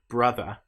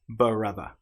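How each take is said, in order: First: The b and r are joined directly. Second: A vowel sound splits the b and r. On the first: The speaker calls it right. "if we're trying to say the word brother" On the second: The speaker calls it wrong. "we don't want to say brother"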